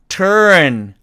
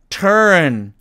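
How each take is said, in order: No difference in how they are said.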